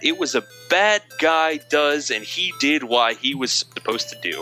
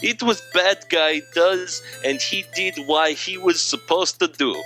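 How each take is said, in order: First: It is read in a normal voice. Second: It is read in a put-on accent.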